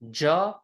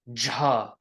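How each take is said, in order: First: The consonant is said without a puff of breath. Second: The consonant is said with a puff of breath.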